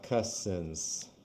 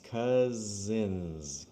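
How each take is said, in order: First: The middle consonant is a voiceless s sound. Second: The middle consonant is a voiced z sound. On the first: The speaker calls it wrong. "not cousins" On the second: The speaker calls it right. "it's two Z's"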